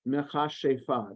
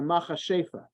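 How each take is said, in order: First: It is pronounced with a Hebrew pronunciation. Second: It is pronounced with a Yiddish pronunciation. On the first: "this Hebrew word" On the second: "so in Yiddish"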